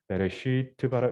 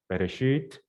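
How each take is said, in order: First: The two words run together without a pause. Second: The first word is stressed, then a pause follows. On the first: "액센트 없이 그냥 한다 치면 이렇게 되죠" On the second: "베레시트 여기에 액센트가 있으면 약간 거기서 포즈가 돼요"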